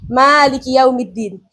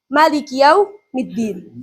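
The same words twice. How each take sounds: First: The first vowel of maliki is long. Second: The first vowel of maliki is short. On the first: "membaca isbatul alif, menetapkan alif" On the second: "membaca tanpa alif"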